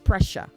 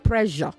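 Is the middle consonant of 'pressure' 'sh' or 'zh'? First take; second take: sh; zh. First: The middle consonant is a voiceless 'sh' sound. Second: The middle consonant is a voiced 'zh' sound. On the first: The speaker calls it right. "It is shh" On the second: The speaker calls it wrong. "not zh"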